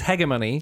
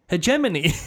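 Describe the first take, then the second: First: The g is pronounced as a hard sound. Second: The g is pronounced as a soft sound. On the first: This follows the German way of saying it. "She says hegemony" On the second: This matches the g in homogenous. "that's where I'm thinking that soft G comes in"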